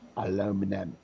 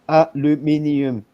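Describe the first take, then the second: First: The word is said with four syllables. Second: The word is said with five syllables. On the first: The speaker calls it wrong. "It's not aluminum" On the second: The speaker calls it right. "the color of aluminium"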